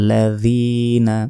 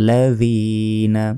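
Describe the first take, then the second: No difference in how they are said.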